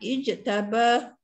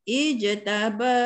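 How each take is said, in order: First: The lengthened vowel is held only briefly. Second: The lengthened vowel is held moderately long. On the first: "dua harakat" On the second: "Empat harakat"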